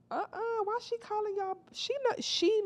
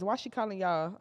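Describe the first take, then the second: First: Much higher, baffled question; incredulous. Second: Said in the usual way. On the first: Real, not acted. Questioning the new girl's greeting in disbelief. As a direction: ask it in disbelief.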